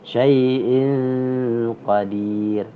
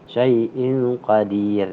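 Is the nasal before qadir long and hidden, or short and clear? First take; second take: long hidden; short clear. First: The n before qadir is a long, hidden nasal. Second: The n before qadir is a short, clear nasal. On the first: The speaker calls it right. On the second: The speaker calls it wrong.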